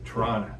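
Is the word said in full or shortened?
shortened. The word is shortened, ending in an uh sound. The speaker calls it wrong.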